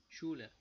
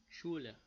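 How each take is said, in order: Both takes have the same delivery.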